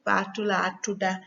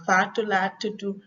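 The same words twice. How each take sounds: First: Gambian Wolof name reply, "tuda" with final a; Gambian accent. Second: Senegalese Wolof name reply, "tudu" with final u; Senegalese accent. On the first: Teacher giving her name as an example, Gambian accent. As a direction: end "tuda" on "ah", Gambian style. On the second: Teacher giving her name as an example, Senegalese accent. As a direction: end "tudu" on "oo", Senegalese style. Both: Shown as a demonstration. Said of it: "Senegalese accent and Gambian accent".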